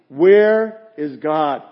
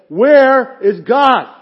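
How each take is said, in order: First: It is said in a stern, firm voice. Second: It is said loudest, almost shouted.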